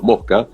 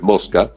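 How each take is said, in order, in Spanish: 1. La S es aspirada, como una h suave. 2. La S se pronuncia claramente como un siseo. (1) "y ahí la S fue aspirada" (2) "en neutro es mosca, suena la S"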